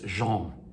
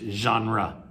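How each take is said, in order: First: It is said with a French pronunciation. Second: It is said with an English pronunciation. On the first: "In French, it's genre" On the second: "we pronounce it in English genre"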